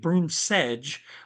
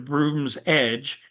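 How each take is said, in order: First: The s sound starts the second word. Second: The s sound ends the first word. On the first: "I- am pronouncing it broom sedge, like with the sedge" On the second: "as opposed to broom's edge"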